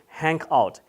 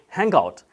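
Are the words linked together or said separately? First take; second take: separate; linked. First: The words are said separately without linking. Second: The words are linked together smoothly. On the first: The speaker calls it wrong. "You shouldn't say" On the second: The speaker calls it right. "You should say"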